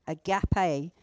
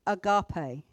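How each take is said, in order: First: Agape with a short flat A in the middle, "uh-GAP-ay"; agape alternative pronunciation. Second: Agape with a reduced first vowel, "uh-GAH-pay"; agape pronunciation variant. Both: Shown as a demonstration. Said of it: "depending on how you want to pronounce it".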